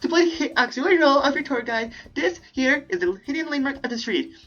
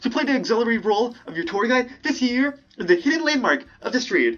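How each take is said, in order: First: It is said in a cute anime voice. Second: It is said in a normal voice.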